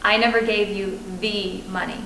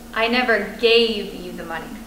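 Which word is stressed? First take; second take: money; gave. First: The stress is on "money". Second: The stress is on "gave".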